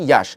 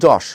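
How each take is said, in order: First: The name begins with a y sound. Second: The name begins with a j sound. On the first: "তুমি যখন ইংলিশে বলবা তখন কিন্তু কি বলতো" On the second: "বাংলায় বললে যশ"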